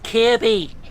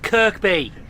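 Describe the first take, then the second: First: No k sound is heard in the middle. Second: A k sound is heard in the middle. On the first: The speaker calls it right. "No, it's Kirby" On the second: The speaker calls it wrong. "This is me who says a railway station wrong"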